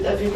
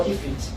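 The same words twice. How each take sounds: First: "F it" opened with an EH sound; contrasted pronunciation. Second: "if it" opened with a short IH sound; contrasted pronunciation. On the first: Teacher asks pupils which is right, EH pronunciation. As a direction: say "F it" as EF-feet. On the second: Teacher offers pupils the alternative, IH pronunciation. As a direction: say "if it" as IF-feet. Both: Shown as a demonstration. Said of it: "is it F it or if it?".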